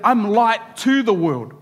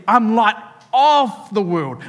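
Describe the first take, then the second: First: "to" leaned on and held, falling; stress on to. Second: "of" punched with a falling tune; "of" stressed and held. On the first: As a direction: hit the word "to" clearly. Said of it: "that's what happened if Jesus said that". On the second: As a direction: lean hard on the word "of". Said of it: "But Jesus says". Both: Shown as a demonstration.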